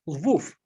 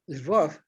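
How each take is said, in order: First: The city name is said in the Polish form. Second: The city name is said in the Russian form. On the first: This is the name used by Poles. "that would be the Poles" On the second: This is the name used by Russians. "that would be the Russians"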